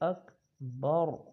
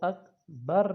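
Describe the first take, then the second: First: The final r is heavy and full. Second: The final r is light and thin. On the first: The speaker calls it right. "रॉ को मोटा करेंगे" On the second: The speaker calls it wrong. "इसको अकबर नहीं पढ़ना"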